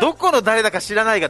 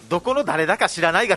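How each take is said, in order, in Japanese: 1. 標準的で、ごく普通のイントネーションで言っています。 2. 変で、どこの訛りとも判別できないイントネーションで言っています。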